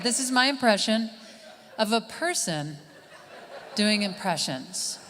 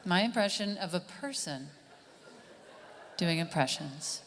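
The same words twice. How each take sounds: First: Said in the usual way. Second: Softer impressionist's repeat of the title; quiet mock-serious announcement; hushed repeat. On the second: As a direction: drop the volume, repeat it solemnly. Repeats the name as mocked earlier.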